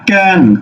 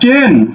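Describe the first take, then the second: First: The vowel is open, like in 'cat'. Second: The vowel is closer, like in 'bed'. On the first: The speaker calls it right. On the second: The speaker calls it wrong. "তুমি কেন বলছো না"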